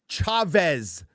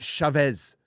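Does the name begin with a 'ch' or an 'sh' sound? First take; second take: ch; sh. First: It begins with a ch sound, as in chair. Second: It begins with a softer sh sound. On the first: The speaker calls it right. "C H as in chair" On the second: The speaker calls it wrong. "not Chavez"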